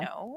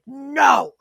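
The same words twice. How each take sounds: First: The word is said calmly and matter-of-factly. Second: The word is yelled loudly and aggressively. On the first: The speaker calls it right. "You you do it calmly" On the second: The speaker calls it wrong. "you don't need to yell like no"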